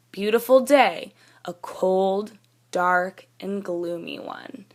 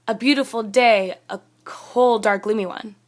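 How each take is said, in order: First: Slow, with breaks after "cold" and "dark"; pauses at commas. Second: "cold, dark, gloomy one" run together without breaks; no pauses. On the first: Teacher reading the corrected list, slow pauses after "cold" and "dark". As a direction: pause after "cold," and "dark," then settle on "and gloomy one". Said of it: "See how that flows a lot nicer?". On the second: Teacher showing what we don't want to say, "dark, gloomy one" run on without pauses. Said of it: "We need some pauses in there". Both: Shown as a demonstration.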